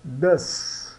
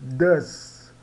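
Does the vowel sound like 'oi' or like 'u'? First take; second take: u; u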